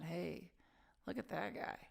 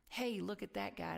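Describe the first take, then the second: First: It sounds pitying and dismissive. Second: It sounds admiring and impressed.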